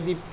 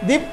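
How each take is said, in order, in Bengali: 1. ছোট মুখ করে আস্তে নামটা ডাকা হয়। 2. বড় মুখ করে জোরে নামটা ডাকা হয়। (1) "ছোট করে মুখ খুলেছি" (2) "জোর করে মুখ খুলে দীপ্ত, জোরে হলো না?"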